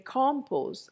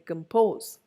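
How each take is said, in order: First: The stress is on the first syllable. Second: The stress is on the second syllable. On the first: The speaker calls it wrong. "I don't say compose" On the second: The speaker calls it right. "it is the second syllable"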